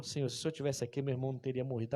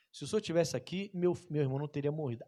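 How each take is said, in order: First: Soft, humble plea; reverent tone. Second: Reverent tone. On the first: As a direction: pray it quietly at his feet. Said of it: "mas com um tom diferente". (súplica reverente e baixa) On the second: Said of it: "só que com um tom diferente". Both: Retold or imitated.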